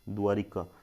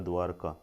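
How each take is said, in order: First: An 'i' vowel is said before the final 'ka'. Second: No vowel is said before the final 'ka'. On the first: The speaker calls it wrong. "हम बोलते हैं द्वारिका, ... ये गलत होता है" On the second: The speaker calls it right. "द्वारका होता है सीधा"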